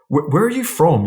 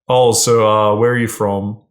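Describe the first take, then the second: First: It is asked in an intrigued, curious tone. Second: It is asked in a flat, bored tone.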